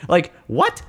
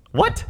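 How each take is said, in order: First: Said in the usual way. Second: Very high, squeaked "what"; incredulous what. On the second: Real, not acted. Host reacting to the absurd scene, high and incredulous. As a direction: shoot the pitch up in disbelief.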